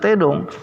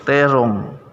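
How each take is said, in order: First: The middle consonant is a d sound. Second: The middle consonant is an r sound. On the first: The speaker calls it wrong. "bukan tedong" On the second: The speaker calls it right.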